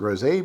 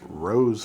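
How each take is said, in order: First: It is said as rosé, not the flower. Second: It is said like the flower name. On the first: The speaker calls it right. "I'm going to pronounce it rosé" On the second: The speaker calls it wrong. "calling this rose flavor, like the flower"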